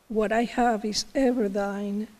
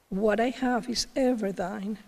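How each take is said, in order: The two takes are said the same way.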